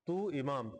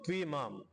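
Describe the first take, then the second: First: The two words are said separately. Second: The two words merge into one word.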